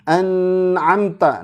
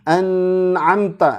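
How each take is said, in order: First: The n sound is held for too long. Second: The n sound is held for too long.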